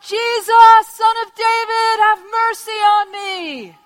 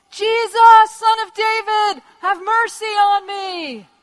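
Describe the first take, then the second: First: High, full-force sustained cry; even louder shout. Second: High, loud, drawn-out plea; desperate shout. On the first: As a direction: bellow a desperate plea over the crowd. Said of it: "He shouted all the louder". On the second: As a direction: cry out over a crowd for mercy. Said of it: "starts shouting out at the top of his voice". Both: Acted.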